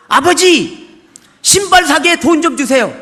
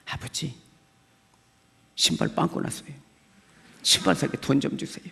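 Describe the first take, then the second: First: Put-on loud, blunt child's demand to God; demanding prayer. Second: Hushed, pleading whisper; earnest whispered prayer. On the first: Child loudly demanding shoes from God in prayer. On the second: Retold or imitated. Child now praying earnestly for shoes, whispered. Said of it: "정말 간절하게 했습니다".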